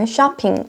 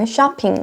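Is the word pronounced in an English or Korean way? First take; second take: English; English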